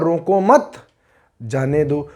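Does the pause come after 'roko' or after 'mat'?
after mat. The pause comes right after 'mat'. Do not stop him; let him go. "रोको मत माने उसको रोकिए मत, जाने दो जाने दीजिए"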